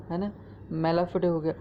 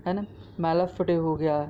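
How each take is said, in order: Both takes have the same delivery.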